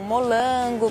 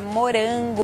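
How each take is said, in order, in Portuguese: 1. A consoante do meio é um som de L. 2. A consoante do meio é um som de R. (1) "geralmente fa falam molango" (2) "para morango"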